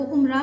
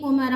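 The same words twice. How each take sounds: First: उमरा said umra, with no vowel between m and r; wrong pronunciation. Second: उमरा said umara, with a short a between m and r; u-ma-ra in three syllables; correct pronunciation. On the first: Teacher showing students the wrong umra. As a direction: show the mistake: um-ra. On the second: Teacher giving students the correct umara. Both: Shown as a demonstration. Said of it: "ये उमरा है".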